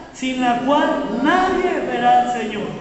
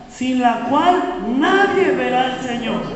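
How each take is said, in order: The two takes are said the same way.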